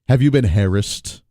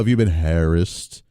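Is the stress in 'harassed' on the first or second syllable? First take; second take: first; second. First: The stress is on the first syllable. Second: The stress is on the second syllable. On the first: The speaker calls it wrong. "How many hairs are you talking about?" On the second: The speaker calls it right.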